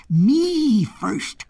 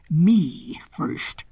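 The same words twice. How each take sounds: First: Goat's cry. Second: Hoarse, drawn-out lion cry; lion's cry. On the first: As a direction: cry out as the insistent goat. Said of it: "cried the goat". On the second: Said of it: "cried the lion". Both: A narrator's reading.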